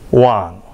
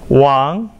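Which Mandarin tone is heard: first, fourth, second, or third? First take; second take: third; second. First: The pitch dips low, then rises. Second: The pitch rises from middle to high.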